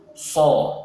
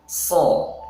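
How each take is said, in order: First: So with pouted lips; wrong rounded so. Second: Slow so with flat unrounded lips; correct so. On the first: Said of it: "bibir kita manyun atau monyong". (so yang salah, bibir monyong) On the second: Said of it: "harusnya so". (so yang benar, bibir tidak monyong) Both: Shown as a demonstration.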